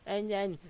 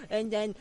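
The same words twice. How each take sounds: The two takes are said the same way.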